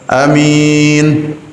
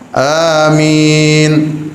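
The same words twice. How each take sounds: First: The first vowel is held very briefly. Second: The first vowel is held for two beats. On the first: "Yang pertama A-nya pendek" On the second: "A-nya panjang dua harokat"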